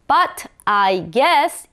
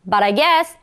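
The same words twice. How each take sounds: First: The words are said separately, not linked. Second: The words flow together as one linked unit. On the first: The speaker calls it wrong. "이게 아니라" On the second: The speaker calls it right. "여기도 하나의 세트가 돼야 됩니다"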